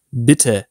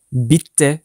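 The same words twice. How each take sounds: First: Bitte with one short, light T, 'bi-te'; natural single T. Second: Bitte with a long, held double T, 'bit-te'; doubled T. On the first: Teacher models natural German for learners, Bitte with short T. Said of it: "demeyi tercih ederseniz daha doğal". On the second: Teacher warns learners off it, bitte with doubled T. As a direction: hold the T in bitte as spelt. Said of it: "bitte demeyin". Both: Shown as a demonstration.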